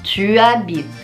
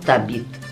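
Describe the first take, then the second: First: The pronoun is said fully as a separate syllable. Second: The pronoun is shortened and joined to the verb. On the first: This is the standard form. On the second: This is casual everyday speech.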